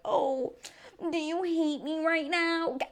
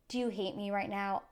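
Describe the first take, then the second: First: Much higher and slow, a whiny mock of Paul; mocking whiny imitation. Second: Said in the usual way. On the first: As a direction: whine "Oh, do you hate me right now?" to make fun of the ex. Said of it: "don't just ask me, like". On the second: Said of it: "this one thing that I said".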